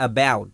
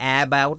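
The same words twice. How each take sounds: First: About opening on a light "uh"; correct schwa. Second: About opening on A as in cat; wrong A sound. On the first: Teacher shows what learners say, uh-BOUT. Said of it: "آپ بولتے ہیں". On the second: Teacher shows what learners don't say, AA-bout. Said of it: "آپ about نہیں بولتے". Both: Shown as a demonstration.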